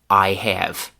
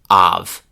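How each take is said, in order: First: Both words are said fully and separately. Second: The vowel shifts to ah, heavily reduced. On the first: "the classic classroom pronunciation" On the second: "the chewing gum form"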